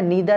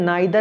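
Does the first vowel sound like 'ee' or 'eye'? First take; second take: ee; eye. First: The first vowel sounds like 'ee'. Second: The first vowel sounds like 'eye'. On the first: "नीदर आपका American और British pronunciation होता है" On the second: "नाइदर Indian pronunciation होता है"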